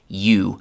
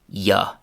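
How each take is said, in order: First: The word ends in a full 'oo' vowel. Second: The word ends in a short 'uh' vowel. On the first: This is the careful textbook form. "the classic classroom pronunciation" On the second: This is how native speakers usually say it. "they say ya"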